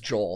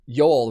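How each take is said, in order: First: The name begins with a J sound. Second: The name begins with a Y sound. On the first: This follows the anglicized pronunciation. "he says Joel" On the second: This follows the Scandinavian pronunciation. "you pronounce the J's as Y's"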